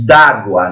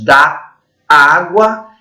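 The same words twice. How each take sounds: First: "d'água" said as one word, the "a" of "da" dropped; "d'água" contracted into a single word; elided d'água. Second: "da água" said as two separate words, both vowels kept; "da água" in full, without merging the vowels. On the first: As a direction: run "d'água" together with the apostrophe elision. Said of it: "D apóstrofo A". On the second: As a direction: keep "da" and "água" apart, no elision. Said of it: "é um símbolo de supressão". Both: Shown as a demonstration.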